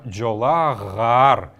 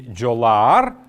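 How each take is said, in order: First: A g sound is inserted between the vowels. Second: The vowels meet directly with no consonant between. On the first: The speaker calls it right. "а «джолагар»" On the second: The speaker calls it wrong. "здесь мы должны говорить не «джолаар»"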